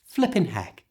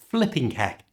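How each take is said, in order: First: The final g of flipping is left off. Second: The final g of flipping is clearly pronounced. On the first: The speaker calls it right. "don't say the G at the end of flipping" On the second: The speaker calls it wrong. "just sounds strange"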